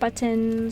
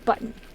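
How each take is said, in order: First: The t sound is said clearly and emphasized. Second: The t sound is dropped into a catch. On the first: "why I overemphasize the word button" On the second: "like a B and like apostrophe U N"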